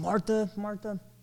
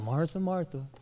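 First: It is said in an angry tone. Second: It is said in an annoyed tone.

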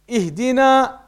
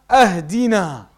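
First: The word begins with an i sound. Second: The word begins with an a sound. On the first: It asks for guidance. The speaker calls it right. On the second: It asks for a gift. The speaker calls it wrong.

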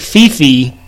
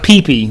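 First: It begins with an F sound. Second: It begins with a P sound. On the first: The speaker calls it wrong. "you would think Fifi, how we say it" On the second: The speaker calls it right. "it's really pronounced Pee-Pee"

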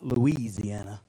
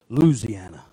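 First: It is said in a non-local way. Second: It is said in the local Louisiana way. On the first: The speaker calls it wrong. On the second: The speaker calls it right.

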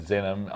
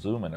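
First: The name is said with a Swiss pronunciation. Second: The name is said with an American pronunciation. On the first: "So that's the Swiss pronunciation" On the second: "I think the American would be"

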